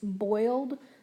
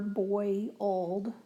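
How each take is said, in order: First: It is said quickly as one syllable. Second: It is said slowly as two syllables. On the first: "some people might say that's just one syllable" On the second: "if you say it a little bit slower"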